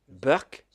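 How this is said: The word begins with a B sound.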